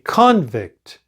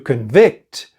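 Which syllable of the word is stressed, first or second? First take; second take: first; second. First: The stress is on the first syllable. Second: The stress is on the second syllable. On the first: It names a person who was convicted. "when it is a noun, we say convict. The stress is on the first syllable" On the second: It is the action of finding someone guilty. "if we have the verb, we say to convict. So the stress is on the second syllable"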